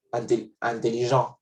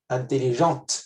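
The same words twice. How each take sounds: First: "intelligent" ending on the nasal vowel, no T; final T silent. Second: "Intelligente" ending in a clear T sound; final T pronounced. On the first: Teacher to students, the masculine form with a silent T. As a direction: say "intelligent" with the T dropped. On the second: Teacher to students, the feminine form with its T. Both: Shown as a demonstration.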